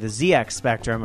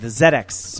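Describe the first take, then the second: First: It is said in an American way, Z as zee. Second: It is said in a British way, Z as zed.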